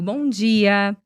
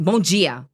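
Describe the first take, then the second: First: The greeting sounds warm, with a stretched vowel. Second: The greeting sounds harsh and aggressive. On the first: The speaker welcomes the listener. "o simples fato de eu esticar um pouquinho a vogal do "i"" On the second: The speaker is hostile to the listener. "só que o meu bom dia foi agressivo"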